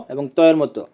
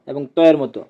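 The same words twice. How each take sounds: The two takes are said the same way.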